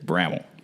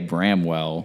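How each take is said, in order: First: The W sound in the middle is dropped. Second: The W sound in the middle is pronounced. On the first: The speaker calls it right. "take the W out" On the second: The speaker calls it wrong. "you're going to get looked at funny"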